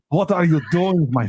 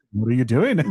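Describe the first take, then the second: First: Badly faked Russian accent. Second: Put-on botched accent drifting into Liverpudlian; lower-pitched, accidental Liverpool accent. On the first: Performing on a friend's request, mock Russian accent. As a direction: attempt Russian, sliding toward German. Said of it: "just do it Russian". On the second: Storyteller retrying a friend's accent, landing in bad Liverpudlian.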